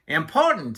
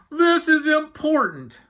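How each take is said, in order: First: Yak's questioning echo, near usual pitch; lightly voiced Yak. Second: High, loud, drawn-out moan; moaning Walrus. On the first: Yak echoing Walrus's plea, lightly voiced. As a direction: toss the word back with a falling tune. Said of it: "said Yak". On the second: Walrus pleading with talkative Yak, moaning high. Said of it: "he moaned". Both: A narrator's reading.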